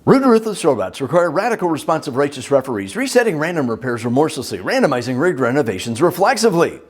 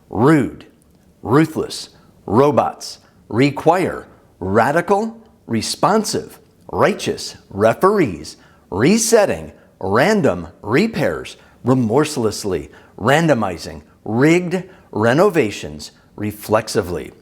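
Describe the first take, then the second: First: It is said very fast. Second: It is said slowly, word by word.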